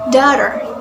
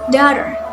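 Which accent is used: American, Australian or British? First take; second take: American; American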